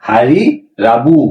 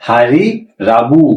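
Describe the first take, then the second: The two takes are said the same way.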